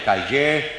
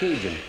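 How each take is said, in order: First: The word is said with a French pronunciation. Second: The word is said with an English pronunciation. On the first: "In the South Louisiana, ... he just shortened that to Cajun" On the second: "In English, you pronounce that Cajun"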